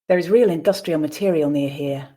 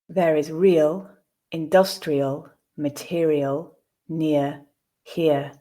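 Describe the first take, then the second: First: The sentence is read at natural speed. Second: The sentence is read slowly. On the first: "at a more natural pace" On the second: "the first time slowly"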